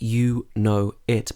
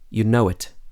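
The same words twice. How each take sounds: First: The words are said separately without a linking sound. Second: A w sound links the vowels between the words. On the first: The speaker calls it wrong. "Not you know it" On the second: The speaker calls it right. "but you know it. ... we've added a w sound"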